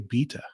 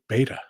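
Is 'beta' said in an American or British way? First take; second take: British; American. First: Beta is said in a British way. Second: Beta is said in an American way. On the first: This is how the other person's country says it. "You you say beta" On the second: This is how the speaker's own country says it. "we we say beta"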